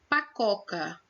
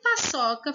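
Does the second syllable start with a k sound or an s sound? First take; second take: k sound; s sound. First: The second syllable starts with a k sound. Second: The second syllable starts with an s sound. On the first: "sem o cedilha" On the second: "Acrescenta um som de S à letrinha C"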